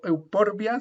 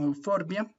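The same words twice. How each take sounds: First: "euporbia" with a P sound; the mistaken P in "euporbia"; P instead of F; wrong pronunciation. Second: "euforbia" with a clear F; the proper F in "euforbia"; F sound kept; correct pronunciation. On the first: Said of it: "no digo euporbia, sino euforbia". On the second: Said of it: "se pronuncia como una F". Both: Shown as a demonstration.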